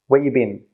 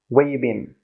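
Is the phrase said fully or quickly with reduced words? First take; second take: reduced; reduced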